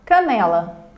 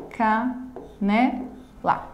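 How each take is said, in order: First: Said in the usual way. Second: "Canela" in three slow beats: ca, ne, la; syllable by syllable. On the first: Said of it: "Também uma palavra". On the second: Shown as a demonstration. Teacher showing a three-syllable word, syllable by syllable. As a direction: pause after each syllable of "Canela". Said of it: "trissílaba".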